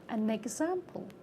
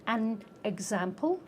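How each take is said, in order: First: The n is carried into the next word. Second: The words are said separately, not linked. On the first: The speaker calls it right. "we say" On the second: The speaker calls it wrong. "we don't say"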